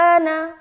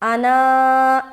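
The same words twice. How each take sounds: First: The final vowel is short, without the alif. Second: The final vowel is drawn out long. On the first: The speaker calls it right. "यहाँ पर पढ़ेंगे वला अना" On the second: The speaker calls it wrong. "ऐसा नहीं करना है"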